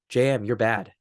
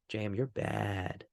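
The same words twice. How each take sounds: First: It sounds like a boss's criticism. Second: It sounds teasing and playful, not critical.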